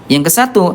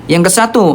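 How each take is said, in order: Both takes have the same delivery.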